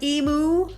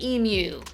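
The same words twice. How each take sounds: First: The word ends sounding like 'moo'. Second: The word ends sounding like 'you'. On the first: "Like a cow goes moo" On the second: "Like you"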